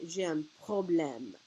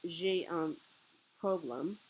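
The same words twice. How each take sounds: First: Problème said the French way, pro-blem with nasal end; slow, careful French problème; French pronunciation. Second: Problème said the English way, like problem; imitating English-style problème. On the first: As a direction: say problème slowly and clearly in French. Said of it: "we would say". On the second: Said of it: "instead of saying it like she did". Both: Shown as a demonstration.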